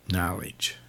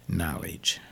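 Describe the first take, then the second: First: Knowledge, whispered low; hushed whisper of knowledge. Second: Knowledge, soft and lower but voiced; soft hushed knowledge; quiet. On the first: Acted. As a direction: breathe the word like a secret. Preacher hushes the key word. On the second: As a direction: say it low and soft, not whispered. Repeats it softly aloud.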